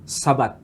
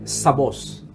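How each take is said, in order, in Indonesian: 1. Kata itu diakhiri dengan bunyi t. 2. Kata itu diakhiri dengan bunyi s.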